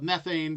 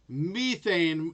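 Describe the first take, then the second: First: It is said the American way. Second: It is said the British way.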